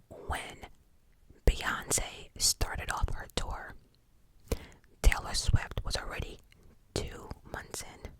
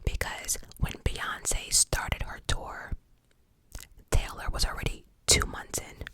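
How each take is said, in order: First: It is said slowly and deliberately. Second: It is said at a normal speed.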